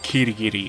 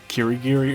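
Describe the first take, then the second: First: The R sounds like a quick D-like flap. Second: The R is a full English R sound. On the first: "a bit of a mix between the letter R sound and the letter L sound, so it kind of sounds like a letter D" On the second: "the English pronunciation of the R sound"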